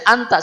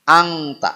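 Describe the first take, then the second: First: The nasal sounds like a plain n before t. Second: The nasal sounds like ng before the t. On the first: The speaker calls it right. "Bacanya anta saja" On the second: The speaker calls it wrong. "Kebanyakan kita membaca ikhfa semuanya eng. Angta. Tidak boleh"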